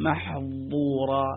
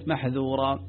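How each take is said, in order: First: The middle consonant is forced into a heavy emphatic sound. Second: The middle consonant is a light, plain dh sound. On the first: The speaker calls it wrong. "لو جاء إنسان وقال محظورة يريد أن ينطقه بقوة" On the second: The speaker calls it right. "انظروا كلمة محذورة"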